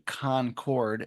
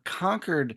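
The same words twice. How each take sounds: First: It is said the way outsiders say it. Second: It is said the local Massachusetts way. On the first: The speaker calls it wrong. "as some people might mispronounce it" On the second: The speaker calls it right. "you are coming to us from Concord, Massachusetts"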